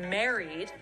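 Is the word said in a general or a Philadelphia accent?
general. It is said in a general American accent.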